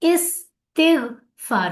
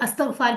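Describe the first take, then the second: First: The word begins with an 'i' vowel sound. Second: The word begins with an 'a' vowel sound. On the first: The speaker calls it right. "इस्तिगफार होता है, याद रखें।" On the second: The speaker calls it wrong. "कई लोग अस्तगफार कहते हैं, गलत है प्रोनाउंसिएशन।"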